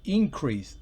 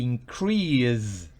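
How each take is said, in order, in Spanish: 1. El acento está en la primera sílaba. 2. El acento está en la última sílaba. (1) "Si va en la primera parte" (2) "está el verbo en la segunda sílaba"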